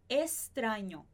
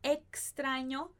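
First: The x is pronounced like s. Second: The x is pronounced like ks.

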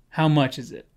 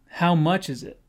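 First: The stress falls on 'how much'. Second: The stress falls on 'how much'.

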